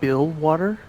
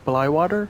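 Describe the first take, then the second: First: The first syllable sounds like 'bill'. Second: The first syllable sounds like 'bly'. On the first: The speaker calls it right. "more like Bill water, kind of like build and plus water" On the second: The speaker calls it wrong. "I know it's not the right pronunciation"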